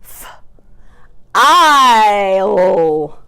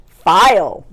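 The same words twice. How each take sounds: First: "f-, isle" split, vowel held very long; chopped-out word. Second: Said in the usual way. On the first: Shown as a demonstration. Teacher swapping the middle sound, drawn out slowly. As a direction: stretch FILE into separate sounds. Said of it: "change that middle sound to". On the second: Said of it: "change that middle sound".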